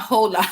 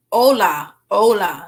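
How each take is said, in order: First: "hola" with a voiced H, "hola" not "ola"; wrong H. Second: "Hola" said "ola" with no H sound; silent h. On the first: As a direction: pronounce the H in "hola" on purpose. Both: Shown as a demonstration. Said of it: "don't pronounce the H".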